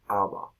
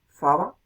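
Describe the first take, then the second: First: The word begins directly with the vowel. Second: The word begins with an f sound.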